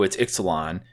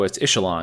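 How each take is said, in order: First: The x is said like ks. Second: The x is said like ch. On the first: "everyone was like, oh, it's Ixalan" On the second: "because the X is pronounced as a CH in the Mayan dialect"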